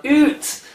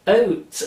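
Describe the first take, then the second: First: "oot" with a long oo vowel, high and loud; mock Canadian "oot", fully rounded; full-on Canadian oot. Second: "oat" said with a rounded oh vowel; "oat" with an oh vowel instead of ow; mild Canadian oat. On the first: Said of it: "a full-on". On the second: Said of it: "it was definitely an". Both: Shown as a demonstration.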